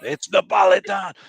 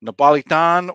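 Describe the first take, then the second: First: Napolitan shouted, higher and louder in mock Italian; Italian accent. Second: Napolitan said with a louder mock Italian lilt; Italian accent. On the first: Host insisting on the answer in a loud mock Italian accent. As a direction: bellow Napolitan like a proud Italian. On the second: Quiz host naming Naples pizza in a mock Italian accent. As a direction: give Napolitan an Italian-American flair. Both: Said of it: "putting on this accent".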